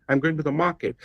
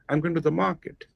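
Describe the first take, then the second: First: Only I, go and mar are stressed. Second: The same.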